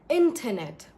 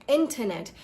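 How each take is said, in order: No difference in how they are said.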